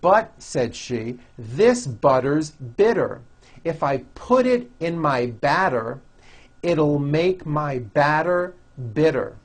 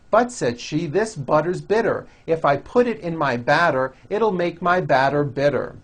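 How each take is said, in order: First: It is read at a slower pace. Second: It is read at a faster pace.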